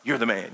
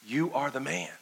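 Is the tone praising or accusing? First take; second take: praising; accusing. First: It sounds like casual praise. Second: It sounds like a serious accusation.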